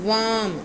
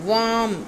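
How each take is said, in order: The two takes are said the same way.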